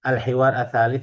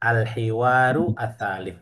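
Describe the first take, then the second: First: No vowel is sounded after 'hiwar'. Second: A short vowel is sounded after 'hiwar'.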